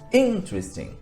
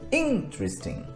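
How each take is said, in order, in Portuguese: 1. A tônica cai na primeira sílaba. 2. A tônica cai na primeira sílaba.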